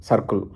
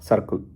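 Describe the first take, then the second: The two takes are said the same way.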